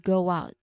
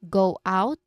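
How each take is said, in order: First: A small W glide links the two words. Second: The two words are said separately, without a glide. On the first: "In connected speech, it's" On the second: "in clear, isolated words, it would sound like"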